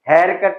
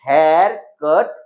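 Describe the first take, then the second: First: The two words run together without a pause. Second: There is a short pause after 'hair'. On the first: It names a haircut as a noun. The speaker calls it wrong. "It is not a full noun hair कट" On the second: Cut is a verb; someone else cut the hair. The speaker calls it right. "Hair उसके बाद छोटा सा पोज लेना है"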